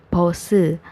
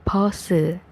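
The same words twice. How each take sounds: No difference in how they are said.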